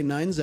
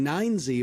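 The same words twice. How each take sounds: First: The letter is said the non-American way. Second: The letter is said the American way. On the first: "I would prefer to say nine Z" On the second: "I went the American route of saying nine Z"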